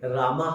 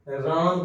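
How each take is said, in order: First: The word ends with an added 'a' vowel. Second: The word ends on the consonant m. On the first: The speaker calls it wrong. "रामा हम नहीं कहते" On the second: The speaker calls it right. "राम कहेंगे"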